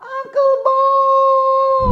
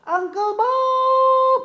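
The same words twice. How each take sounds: First: Much louder, very high, long drawn-out yell; loud shout. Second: High, slow, sung-out call. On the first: Puppet Kobon yells even louder for Uncle Bob to come. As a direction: shout it with everything, so he hears. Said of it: "Kurang kuat, dia nggak denger". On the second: Puppet Kobon calls out to Uncle Bob, high and drawn out. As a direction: stretch the name out like a call across a room. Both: Acted.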